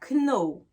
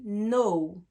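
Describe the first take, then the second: First: The word begins with a hard K sound. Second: The word begins directly with an N sound. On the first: The speaker calls it wrong. "On ne dit pas know" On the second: The speaker calls it right. "on dit know"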